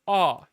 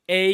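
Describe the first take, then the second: First: The vowel is open and wide. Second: The vowel is thin and narrow. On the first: The speaker calls it right. "you would say ah, you know, like have an open vowel" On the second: The speaker calls it wrong. "when you sing a song that has a thin A sound, you wouldn't just say A"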